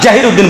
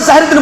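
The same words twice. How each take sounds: First: The name is pronounced with a Bengali sound. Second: The name is pronounced with its Arabic sound. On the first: "জাহির উদ্দিন বলবো আমরা" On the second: "আমরা জাহির উদ্দিন বলবো না"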